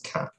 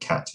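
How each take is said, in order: First: The word ends with a glottal stop. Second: The word ends with a clear t sound. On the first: "a glottal stop"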